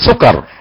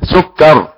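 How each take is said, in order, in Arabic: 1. يُقصر الحرف المشدد ويُنطق سريعًا. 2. يُنطق الحرف المشدد بتأكيد وإطالة. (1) "لا أقول سكر ضيعتنا نبرة المشدد" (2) "فيها نبرة مشدد"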